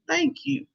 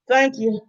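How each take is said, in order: First: It is said warmly, with a smile. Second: It is said coldly and uninterested.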